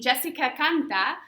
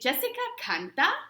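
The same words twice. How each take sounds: First: The voice falls at the end. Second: The voice rises at the end. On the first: It states a fact. "instead of saying Jessica canta" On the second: It asks a question. "we're going to raise that intonation at the end of that verb"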